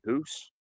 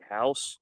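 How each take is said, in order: First: The vowel is a rounded 'oo' sound. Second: The vowel is the standard 'ow' sound. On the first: The speaker calls it wrong. "the Canadian accent when they say house and they say hoose" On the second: The speaker calls it right. "everybody says house"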